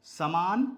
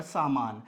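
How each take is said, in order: First: समान with a quick short a in स, long maa; short first vowel. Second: सामान with long aa in both सा and मा; long first vowel. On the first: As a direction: say समान as "sa-maan", first syllable brief. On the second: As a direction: say सामान as "saa-maan", first syllable held. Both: Shown as a demonstration. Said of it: "समान अलग होता है और सामान अलग होता है".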